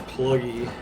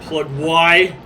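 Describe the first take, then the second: First: The name ends in a short 'ee' sound. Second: The name ends in a separate 'why' sound. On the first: The speaker calls it right. "It's pluggy" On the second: The speaker calls it wrong. "It's not plug Y"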